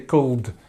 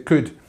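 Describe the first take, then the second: First: The L sound is pronounced in the word. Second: The L is silent, ending in an 'ud' sound. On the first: The speaker calls it wrong. "in could, we don't say the L. We don't say could" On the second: The speaker calls it right. "We say could. So it's a ud sound"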